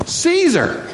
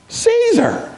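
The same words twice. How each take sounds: First: Caesar flung out high and sharp; emphatic answer. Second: Caesar again, higher and more scornful; stronger repeat. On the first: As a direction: hit Caesar high, like a verdict. Answering his own question. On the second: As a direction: hit Caesar higher still, with disdain. Repeats answer even stronger. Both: Acted.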